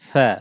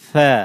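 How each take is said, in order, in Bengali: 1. s ধ্বনিটি নরমভাবে বলা হয়। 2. s ধ্বনিটি নরমভাবে বলা হয়।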